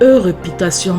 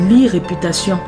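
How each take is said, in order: First: The first letter sounds like a French 'e'. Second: The first letter sounds like an English 'ee'.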